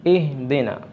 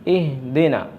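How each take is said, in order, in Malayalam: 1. h ശബ്ദം മിനുസമുള്ളതും മിതമായതുമാണ്. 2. h ശബ്ദം മിനുസമുള്ളതും മിതമായതുമാണ്.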